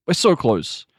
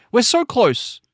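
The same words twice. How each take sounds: First: Said in the usual way. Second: Pitched way up, eager; high excited take. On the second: Acted. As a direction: fling it high like it's almost done. Repeating the same line twice.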